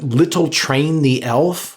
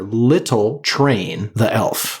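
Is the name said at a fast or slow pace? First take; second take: fast; slow. First: The name is said at a normal pace. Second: The name is said slowly and deliberately.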